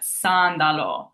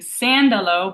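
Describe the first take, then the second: First: The first A vowel is tall and open. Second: The first A vowel is flat and spread. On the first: The speaker calls it right. "make sure A stays tall" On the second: The speaker calls it wrong. "so you're not saying sandalo"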